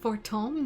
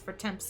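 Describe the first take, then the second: First: The name is said like 'for-tom'. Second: The name is said like 'for-temps'. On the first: The speaker calls it right. "That's how you pronounce that?" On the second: The speaker calls it wrong. "I've been saying House for Temps this entire time"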